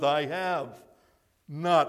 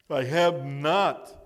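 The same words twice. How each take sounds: First: Said in the usual way. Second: Slow "I have not", leaning on "not"; stress on not. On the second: Shown as a demonstration. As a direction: drag out "I have not" and land hard on "not". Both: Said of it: "I want you to underline the word not".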